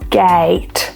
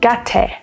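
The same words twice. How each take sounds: First: The vowel is a long a sound. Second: The vowel is a short a sound. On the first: The speaker calls it right. "try a different vowel sound" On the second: The speaker calls it wrong. "they have only learned that the A makes the A sound"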